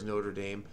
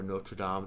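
First: It is pronounced the anglicized way. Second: It is pronounced the French way. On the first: It refers to the American football team. "depending on whether you're a football fan" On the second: It refers to the French cathedral. "or you like French cathedrals"

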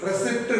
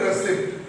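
No difference in how they are said.

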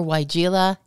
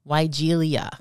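First: The name ends in a plain 'la' sound. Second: The name ends in an extra 'lia' sound. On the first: The speaker calls it right. "whether you say Weigela or Weigela" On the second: The speaker calls it wrong. "it's definitely not Weigelia"

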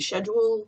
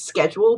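First: It is said with a British pronunciation. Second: It is said with an American pronunciation. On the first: "the English way of saying schedule"

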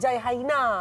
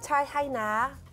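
First: It is said in a harsh, Hindi-like way. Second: It is said in a soft, gentle way. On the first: The speaker calls it wrong. "dia bukan macam Hindustan tau, bukan macam jai haina" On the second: The speaker calls it right. "dia macam ada lembut dia. Macam ni"

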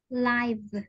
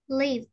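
First: The vowel sounds like 'eye'. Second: The vowel is a short 'i' sound. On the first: It means happening in real time, as in a live show. "Thì lúc này mình đọc là ai?" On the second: It is the verb meaning to dwell or be alive. "Nó mang nghĩa là sống"

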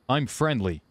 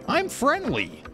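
First: It is said in a normal-sounding voice. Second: It is said in a cartoon-character voice.

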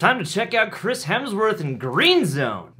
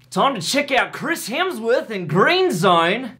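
First: It is spoken without an Australian accent. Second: It is spoken with an Australian accent.

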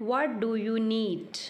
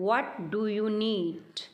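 No difference in how they are said.

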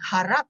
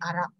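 First: The word begins with an h sound. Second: The word begins without an h sound. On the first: This is the standard Malay form. "Instead of saying Harap" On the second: This marks the speaker as Baba Malay. "they may drop the H sound"

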